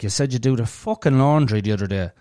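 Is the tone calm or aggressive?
aggressive. It is said in an aggressive, raised tone.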